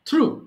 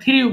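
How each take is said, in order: First: The vowel is a plain 'oo' without glide. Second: The vowel has a 'y' glide, like 'yoo'. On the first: The speaker calls it right. "It should be থ্রু" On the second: The speaker calls it wrong. "থ্রিউ is wrong pronunciation"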